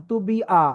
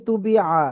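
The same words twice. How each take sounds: First: তু বি আ with the আ as a plain glottal hamza, no throat squeeze; তু বি আ with a simple hamza vowel. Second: তু বি আ with আ pressed from mid-throat as Arabic ayn; তু বি আ with a throaty ayn on the আ; with the ayn sound. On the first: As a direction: read তু বি আ with a light hamza. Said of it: "আমি যদি এটা হামজা পড়তাম, তাহলে আমি এভাবে পড়তাম". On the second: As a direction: squeeze the আ in তু বি আ from the throat. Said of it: "আর আমি পড়ছি তু বি আ". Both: Shown as a demonstration.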